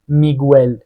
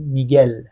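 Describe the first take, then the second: First: A w sound follows the g. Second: No w sound follows the g. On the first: The speaker calls it wrong. "میگل رو نمیگیم میگوئل" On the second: The speaker calls it right. "میگیم میگل"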